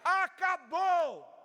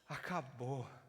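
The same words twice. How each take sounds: First: It is shouted loudly as a triumphant proclamation. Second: It is sighed softly with weary relief. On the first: A royal decree declares the debt fully paid. The speaker calls it right. "O rei levanta de seu trono e grita" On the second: The suffering is finally over. The speaker calls it wrong. "ele solta um suspiro de alívio e diz"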